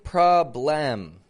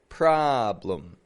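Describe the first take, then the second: First: The second syllable has a full vowel. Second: The second syllable has a reduced schwa vowel. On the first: The speaker calls it wrong. "I'm not saying problem. The spelling is B L E M" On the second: The speaker calls it right. "And there it is right there. Problem. In the second syllable"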